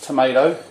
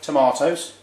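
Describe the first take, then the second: First: It is said with an American accent. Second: It is said with a British accent.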